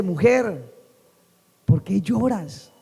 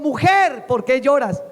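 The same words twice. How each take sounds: First: Tender. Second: Raised preaching voice; emphatic scripture reading. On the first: The Lord speaks to someone weeping, tender. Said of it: "el Señor es muy lindo". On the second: Preacher quotes Jesus to Mary, emphatic. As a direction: proclaim the verse to the congregation. Verse read out in preaching fervour. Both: Acted.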